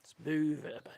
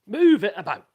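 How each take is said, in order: First: Breathy hushed repeat; whispered. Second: Loud instruction. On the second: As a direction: call it out loud and firm. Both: Shown as a demonstration. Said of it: "That's what you gotta do".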